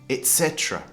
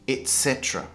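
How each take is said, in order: Both takes have the same delivery.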